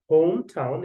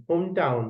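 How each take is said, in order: First: "হোম টাউন" with a puffed, aspirated T in টাউন; correct pronunciation. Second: "হোম টাউন" with an unaspirated local T in টাউন; faulty pronunciation. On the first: Teacher modelling "হোম টাউন" for exam students, correctly aspirated T. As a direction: say "হোম টাউন" carefully, with a clear English T. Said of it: "এটাকে আপনি এরকম করে বললেন". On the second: Teacher showing students a mistaken "হোম টাউন", unaspirated T. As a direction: say "হোম টাউন" with no puff after the T. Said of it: "উচ্চারণটা ঠিক হলো না". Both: Shown as a demonstration.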